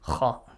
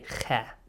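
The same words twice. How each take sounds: First: The letter is said heavy, with a deep, thick sound. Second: The letter is said light, without a deep, thick sound. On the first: The speaker calls it right. "It's always heavy" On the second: The speaker calls it wrong. "You don't say Kha"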